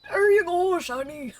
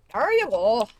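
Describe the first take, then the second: First: Much higher and louder cartoon old man; hammed-up old geezer calling out. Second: Put-on louder, strained old man voice; hammed-up creaky old man. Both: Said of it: "It's really hard to do an old man voice".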